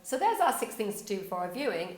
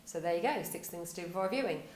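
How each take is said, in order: First: Lively lead-in to an offer; inviting wrap-up. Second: Throwaway sign-off, tailing away; falling off at the end. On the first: Demonstrating a better blog ending to viewers, inviting wrap-up. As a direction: wrap up brightly, with more still to come. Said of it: "Or does it go". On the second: Demonstrating a weak blog ending to viewers, falling off at the end. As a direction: let it drop away as if that is all. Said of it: "just fall off the end of a cliff". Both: Shown as a demonstration.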